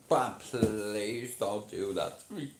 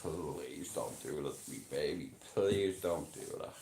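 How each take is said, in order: First: Drawn-out, slow mock plea; pleading impression. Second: Low, hushed mock begging; pleading impression. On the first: Streamer showing what happens to him, pleading impression. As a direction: stretch out the begging as an impression. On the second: Streamer imitating someone begging a baby to stop, low pleading impression. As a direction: drop low and soft to plead, putting it on. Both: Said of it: "this is an impression of someone".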